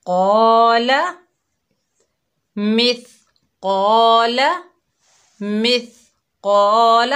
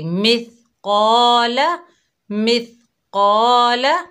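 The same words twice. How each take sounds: First: मिस कौला with a louder, heavy rising कौला; wrong heavy reading. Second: मिस कौला said softly and lightly, slowly; soft light reading. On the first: Teacher showing children the wrong heavy way. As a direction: say कौला too hard and loud, the wrong way. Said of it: "अब हम इसको मिस कौला नहीं पढ़ेंगे". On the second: Teacher showing children the soft correct way. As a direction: read कौला gently and thin. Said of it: "बहुत ही नरमी से हल्का पढ़ेंगे". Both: Shown as a demonstration.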